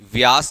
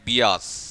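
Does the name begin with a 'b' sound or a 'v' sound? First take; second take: v; b. First: The name begins with a 'vy' sound. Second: The name begins with a 'bi' sound. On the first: This is how people usually say the name. "व्यास जरूर बोलते हैं" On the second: This follows the written spelling of the name. "Spelling goes like बियास"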